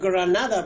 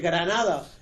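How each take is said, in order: First: The name is pronounced the English way. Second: The name is pronounced the Spanish way.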